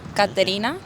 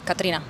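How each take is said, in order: First: The name is said slowly, with every syllable. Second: The name is said fast, with a syllable dropped.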